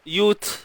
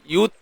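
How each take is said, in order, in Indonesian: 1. Bunyi t bocor udara tanpa ditahan. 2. Bunyi t ditahan kuat sebelum dilepas. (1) "bocor bunyi dia" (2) "dengan menahan dulu suara syiddah"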